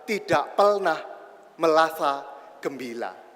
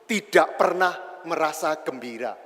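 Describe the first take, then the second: First: The r sounds are pronounced as l. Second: The r sounds are pronounced as r. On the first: "pemulung yang pakai L" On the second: "pemurung yang pakai R"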